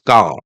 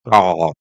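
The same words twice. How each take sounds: First: The final R is not pronounced. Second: The final R is clearly pronounced. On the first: "R at the end of a word it's not pronounced strongly" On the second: "the Americans say car"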